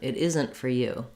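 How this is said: The stress falls on 'isn't'. "Or we might also stress isn't"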